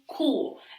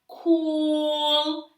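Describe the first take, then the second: First: The word is split into separate sounds. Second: The word is drawn out slowly and long. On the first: "and then I broke the word down" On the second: "I stretched the word out"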